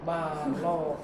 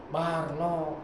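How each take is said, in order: The two takes are said the same way.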